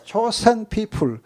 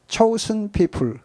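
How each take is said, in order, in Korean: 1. 'chosen'은 한국어 단어 'Joseon'처럼 들려요. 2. 'chosen'은 영어 단어 'chosen'처럼 들려요.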